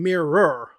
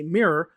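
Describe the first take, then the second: First: The second syllable is said strongly and clearly. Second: The second syllable is said softly and weakly. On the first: "saying it really strong with that second syllable" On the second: "I say mirror a little bit softer"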